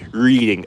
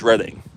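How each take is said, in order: First: It sounds like the everyday word reading. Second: It sounds unlike the everyday word reading. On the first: The speaker calls it wrong. "some people accidentally pronounce it as reading" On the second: The speaker calls it right. "if you read it correctly, it's Reading"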